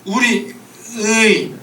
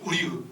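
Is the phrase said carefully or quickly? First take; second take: carefully; quickly. First: It is said slowly and carefully, with concentration. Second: It is said quickly, without care. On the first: With effort the sound can be managed. The speaker calls it right. "막 집중해서 하면 할 수 있을 수도 있겠죠" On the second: Under pressure the regional habit shows. The speaker calls it wrong. "빨리 해봐 그럼"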